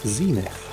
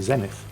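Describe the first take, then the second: First: The first vowel is long, like 'zee'. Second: The first vowel is short, like 'zen'. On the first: This is the American pronunciation. "the first vowel is usually pronounced as a long vowel. So E instead of F" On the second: This is the British pronunciation. "here in Britain we say Zenith"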